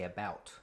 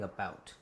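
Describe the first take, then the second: First: "about" with an open American vowel; corrected, non-Canadian "about". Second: "about" with a raised Canadian vowel. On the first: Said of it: "You need to say about". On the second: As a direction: imitate a Canadian saying "about". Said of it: "you're saying that like a Canadian". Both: Retold or imitated.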